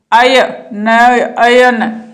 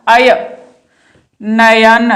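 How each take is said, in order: First: "अय" and "नयन" stretched very slowly so the अय sound stands out; drawn-out sound demo. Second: Said in the usual way. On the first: Shown as a demonstration. Teacher showing students the अय sound in नयन, slowly drawn out. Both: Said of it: "अय की ध्वनि आती है इसमें".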